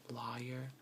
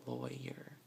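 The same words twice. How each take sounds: First: Lawyer said law-yer; proper lawyer. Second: Lawyer said slowly as loyer; local lawyer. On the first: Speaker showing the proper lawyer. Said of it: "supposed to be pronounced". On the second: Speaker showing the local lawyer. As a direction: say lawyer as loy-er. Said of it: "but we say, like, lawyer". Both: Shown as a demonstration.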